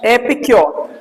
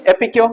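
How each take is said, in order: First: एपिक्योर with a full योर ending; wrong pronunciation. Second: एपिक्यो with the र dropped at the end; corrected pronunciation. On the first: Teacher shows the Hindi speakers' error, एपिक्योर. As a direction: demo of the wrong reading एपिक्योर. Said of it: "योर जरूरी नहीं है". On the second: Teacher drills the corrected form for students, एपिक्यो. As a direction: say एपिक्यो, with no final र. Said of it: "बार बार बोला करो". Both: Shown as a demonstration.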